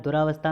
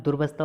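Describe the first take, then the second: First: दुरावस्था with "raa" in the middle; wrong long vowel. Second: दुर्वस्था as "dur-vasthaa"; middle vowel dropped. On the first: Teacher showing the error, "raa" in दुरावस्था. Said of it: "में दुर्वस्था होता है". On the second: Teacher correcting students, no "raa" in दुर्वस्था. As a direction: run r straight into v in दुर्वस्था. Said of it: "होता है". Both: Shown as a demonstration.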